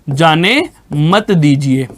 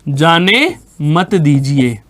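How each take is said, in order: Both takes have the same delivery.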